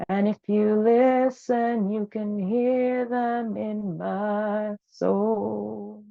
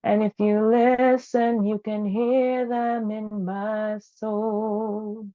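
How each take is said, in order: Both takes have the same delivery.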